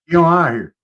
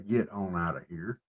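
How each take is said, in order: First: The words are shortened and run together. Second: Each word is said fully and separately. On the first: "we shorten everything up" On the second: "We don't say"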